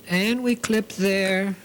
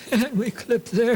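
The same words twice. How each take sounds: First: Said in the usual way. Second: Giggling through the repeat, pitched up; laughing. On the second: Real, not acted. Sewing teacher laughing at her own clipping repeats, giggly. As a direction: laugh as you say the line again, a bit higher.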